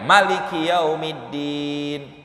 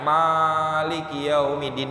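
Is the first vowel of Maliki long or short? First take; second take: short; long. First: The first vowel of Maliki is kept short. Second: The first vowel of Maliki is drawn out long. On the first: "dengan wahadzfil alif" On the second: "dipanjangin alifnya bi isbatil alif"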